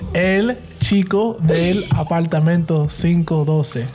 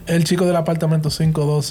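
First: The name is said more slowly. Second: The name is said at a normal pace. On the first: The speaker calls it right. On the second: The speaker calls it wrong.

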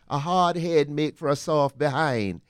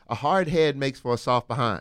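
First: It is said in a Caribbean accent. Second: It is said in the speaker's plain accent.

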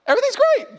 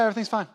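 First: It is said happily, with a smile. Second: It is said in an upset, cold tone.

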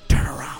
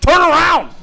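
First: It is said quietly, at low volume. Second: It is said loudest, with forceful volume. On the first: The speaker is trying not to be overheard. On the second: The speaker is frustrated at being ignored.

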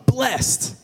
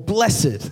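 First: The word is said in a plain, everyday way. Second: The word is said in a more holy-sounding way.

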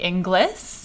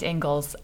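First: The name is said the way it is spelled. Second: The name is said to sound like Ingalls. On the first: This is how the written name looks. The speaker calls it wrong. "If you read it, it looks like Inglis" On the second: This is how the name is actually said. The speaker calls it right. "in fact, Ingles, as in Laura Ingles"

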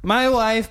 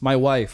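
First: It is said in a put-on character voice. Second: It is said in the speaker's ordinary voice. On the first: The speaker calls it wrong. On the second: The speaker calls it right.

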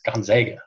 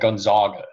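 First: The middle syllable has an 'a' vowel, like 'zag'. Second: The middle syllable has an 'ah' vowel, like 'zog'. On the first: The speaker calls it right. "no, it's Gonzaga" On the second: The speaker calls it wrong. "they pronounce the school wrong. They're like"

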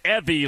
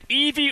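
First: The first vowel is a short 'eh' sound. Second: The first vowel is a long 'ee' sound. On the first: This is how someone else says the name. The speaker calls it wrong. "like Karen calls you" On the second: This is how the name's owner says it. The speaker calls it right. "Is it Evie"

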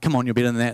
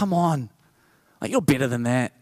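First: It is said in a harsh, scolding tone. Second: It is said in a gentle, encouraging tone.

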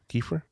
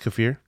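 First: It sounds like the name Kiefer. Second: It sounds like the word kaffir. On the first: "It's like Kefir Sutherland" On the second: "Like kefir lime leaf"

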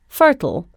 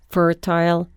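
First: It is said in an American pronunciation. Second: It is said in a British pronunciation.

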